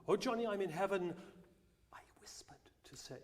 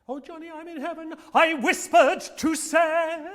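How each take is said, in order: First: It is said quietly. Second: It is said loudly.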